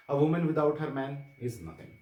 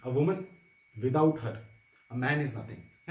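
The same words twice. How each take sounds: First: A woman without her man run together, then is nothing; comma after man. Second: A woman, pause, without her lifted, pause, a man is nothing; commas around without her. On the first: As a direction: keep her man in one phrase, slight break before is nothing. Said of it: "women without her man के बाद comma लगाया". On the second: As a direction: break firmly after woman and after her. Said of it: "लड़कियां थी class में उन्होंने ऐसा लिखा". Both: Shown as a demonstration.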